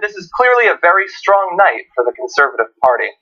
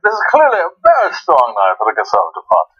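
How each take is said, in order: First: It is said in the speaker's ordinary American accent. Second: It is said in a put-on British accent.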